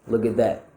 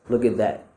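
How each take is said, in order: The two takes are said the same way.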